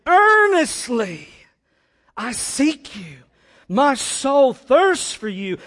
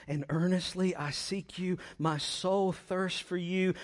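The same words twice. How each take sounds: First: Slow, loud, high cry; full-force impassioned psalm reading; desperate intensity. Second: Said in the usual way. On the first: Shown as a demonstration. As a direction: stretch each phrase out in fervent longing. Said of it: "intensity and desperation for God".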